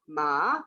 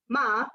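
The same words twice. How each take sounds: First: The pitch dips down and then rises. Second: The pitch stays high and steady throughout. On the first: It means horse. "With the dipping tone" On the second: It means mother. "the high steady tone"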